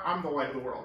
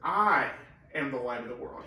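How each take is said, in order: First: The word am is contracted and unstressed. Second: The word am is full and stressed. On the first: No special weight is put on identity. "if we just didn't really want to emphasize it" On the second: Emphasis is put on who the speaker is. "when we want to emphasize it"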